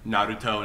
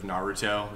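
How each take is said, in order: First: The R is a quick tap of the tongue. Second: The R is a smooth English-style R. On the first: The speaker calls it right. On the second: The speaker calls it wrong.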